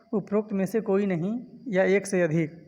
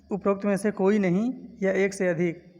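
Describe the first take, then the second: No difference in how they are said.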